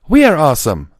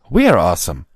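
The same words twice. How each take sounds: First: It is said with more enthusiasm. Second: It is said with little force.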